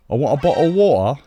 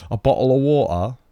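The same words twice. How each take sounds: First: Loud, higher mock American accent; a bad American, hammed up. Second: Louder mock American retry; American accent. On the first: Attempting an American accent for chat. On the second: Retrying the American accent for chat. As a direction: another bad American try. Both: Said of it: "American accent".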